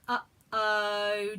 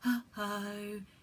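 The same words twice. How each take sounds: First: It is said in a normal speaking voice. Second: It is said with a very breathy voice.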